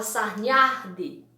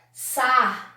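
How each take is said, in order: First: Said in the usual way. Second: SARNHADI split as sar, nha, di; syllable by syllable. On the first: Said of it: "Existe essa palavra sarnhadi?". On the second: Shown as a demonstration. Teacher testing whether sarnhadi exists, syllable by syllable. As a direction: sound out sarnhadi in spaced syllables. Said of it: "Até difícil da gente, é, pronunciar".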